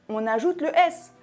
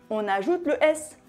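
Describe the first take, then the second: The two takes are said the same way.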